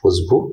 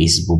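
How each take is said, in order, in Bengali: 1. শব্দটি 'u' স্বরধ্বনি দিয়ে শুরু হয়। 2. শব্দটি 'i' স্বরধ্বনি দিয়ে শুরু হয়। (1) "একটু শুদ্ধভাবে বলা হয় উসবু" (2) "অঞ্চল ভেদে উসবুকে ইসবু বলা হয়"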